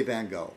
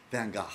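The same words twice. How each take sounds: First: "Gogh" said like "go"; "Van Gogh" rhyming with "tango"; American pronunciation. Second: "Gogh" ending "gah", in rough Dutch style; "Van Gogh" with an open ah in a tentative Dutch accent; attempted Dutch pronunciation. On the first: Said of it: "Americans say Van Gogh, usually". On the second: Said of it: "in a Dutch accent". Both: Shown as a demonstration.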